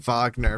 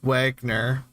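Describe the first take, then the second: First: The name is said with a German pronunciation. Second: The name is said with an American pronunciation. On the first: This is how the name was originally said. "I kept wanting to say Wagner because I took German" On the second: This is how the teacher's family said it. "his last name was Wagner"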